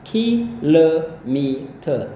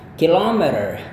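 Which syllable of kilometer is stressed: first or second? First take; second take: first; second. First: The stress is on the first syllable. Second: The stress is on the second syllable. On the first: This is the British way of saying it. "gaya Inggris kalian lihat ada komanya justru di ki" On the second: This is the American way of saying it. "ini juga ada koma atasnya. Dan ini adalah bunyi O yang panjangnya"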